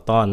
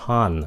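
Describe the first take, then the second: First: "ton" with an unaspirated t; wrong ton. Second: "ton" with a puff of air on t; correct ton. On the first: Teacher shows the mistake, unaspirated t in "ton". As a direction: say "ton" with a Vietnamese-style t, no puff. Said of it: "đừng phát âm nó là âm ton". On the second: Teacher corrects the t, puff of air in "ton". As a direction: say "ton" as aspirated tahn. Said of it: "âm th, ton". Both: Shown as a demonstration.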